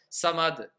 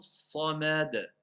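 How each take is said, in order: First: The word is rushed out very quickly. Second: The word is said at a measured, clear pace. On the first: The speaker calls it wrong. "Ils vont aller à, à deux cents à l'heure" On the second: The speaker calls it right. "on entend bien le mot as-samad"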